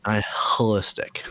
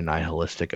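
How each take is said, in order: First: "nihilistic" drawn out slowly with a heavy H; exaggerated H. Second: "nihilistic" with the H pronounced; audible H. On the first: Shown as a demonstration. Showing co-host the pronunciation, "nihilistic" with a stressed H. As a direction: lean hard on the H in "nihilistic". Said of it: "Is that better?". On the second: Real, not acted. Commenting on own gloomy joke, "nihilistic" with its H sounded. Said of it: "pronounce the H in nihilistic".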